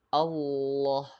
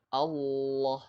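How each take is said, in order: First: The L sound is held long and pressed. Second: The L sound is held long and pressed.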